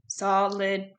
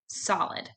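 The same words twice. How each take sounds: First: It is said in a flat robotic voice. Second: It is said in a normal speaking voice.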